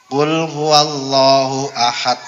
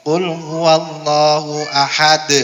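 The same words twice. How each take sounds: The two takes are said the same way.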